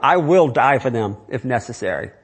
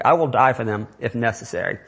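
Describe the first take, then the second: First: Firm stress on "will" in "I will die for them if necessary"; said emphatically. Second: Said in the usual way. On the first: Real, not acted. Pastor to congregation, stressing "will" with firm emphasis. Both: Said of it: "I'm saying that emphatically".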